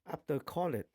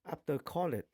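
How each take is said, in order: No difference in how they are said.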